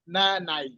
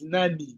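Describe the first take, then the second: First: The final vowel sounds like 'eye'. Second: The final vowel sounds like 'ee'. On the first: The speaker calls it wrong. "You don't say nan, nanai" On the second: The speaker calls it right. "It's nani"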